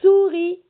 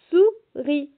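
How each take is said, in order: First: "Souris" with a long hissed first S, loud and high; stretched initial S. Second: "Souris" in two separate beats, Sou, then ris; split into syllables. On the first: Teacher asks children if they hear S in souris, stretched initial S. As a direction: hold the S before launching into "Souris". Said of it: "Est-ce que vous entendez le S dans souris?". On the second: Teacher shows S is in the first syllable, split into syllables. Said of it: "dans la première syllabe". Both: Shown as a demonstration.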